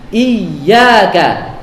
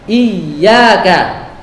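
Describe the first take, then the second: The two takes are said the same way.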